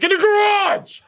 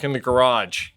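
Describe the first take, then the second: First: High, sudden yelled repeat; blurted high-pitched holler; exasperated yell. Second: Said in the usual way. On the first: Retold or imitated. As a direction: yell it as if they didn't hear you. Repeats answer after she says What.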